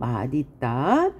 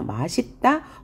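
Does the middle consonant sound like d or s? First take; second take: d; s. First: The middle consonant sounds like d. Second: The middle consonant sounds like s. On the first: This is the standard pronunciation. "원칙" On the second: This is an allowed alternative pronunciation. "허용"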